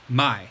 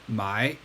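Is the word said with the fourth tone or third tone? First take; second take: fourth tone; third tone. First: The word is said with the fourth tone. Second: The word is said with the third tone. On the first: It means to sell. "my fourth tone means to sell" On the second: It means to buy. "my third tone means buy"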